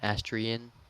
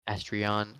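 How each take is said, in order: First: The ending sounds like the end of Christian. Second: The ending rhymes with the word lion.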